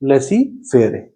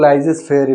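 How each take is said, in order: First: The first word sounds like 'lessy'. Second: The first word sounds like 'lai-zes'. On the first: "ये होता है हमारा concept of लेसी फेरे" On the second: "इसको कुछ लोग लाइजेस फेरे भी कहते हैं"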